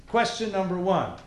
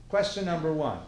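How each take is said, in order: Both takes have the same delivery.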